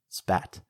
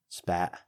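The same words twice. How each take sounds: First: The final T is clearly released. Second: The final T is cut off, glottalized. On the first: "instead of" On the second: "We cut the T's off the end of words"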